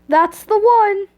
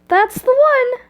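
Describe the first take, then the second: First: It is said in a lower-pitched voice. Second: It is said in a higher-pitched voice.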